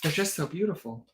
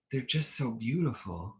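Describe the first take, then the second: First: Put-on higher, dreamy little-kid voice; six-year-old, higher. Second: Lightly voiced little kid, soft and dreamy; a hint of a small child in awe; six-year-old. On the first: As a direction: echo the child's awe, a bit higher. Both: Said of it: "imagine, like, a six-year-old saying that".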